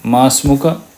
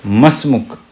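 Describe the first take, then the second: First: "माँ अस्मुका" said in full, ending on a clear final a; the long textbook form "माँ अस्मुका". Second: "मसमुक" run together with no final a; "मसमुक" in one breath, stopping on the k; everyday contracted "मसमुक"; short spoken form. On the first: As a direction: spell out every syllable of "माँ अस्मुका", ending on the a. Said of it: "अरबी language में ये पूरा नहीं बोलते". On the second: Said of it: "मसमुका भी नहीं बोलते, मसमुक बोलते हैं". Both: Shown as a demonstration.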